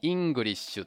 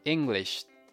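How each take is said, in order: First: It is said with a Japanese accent. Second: It is said with an American accent.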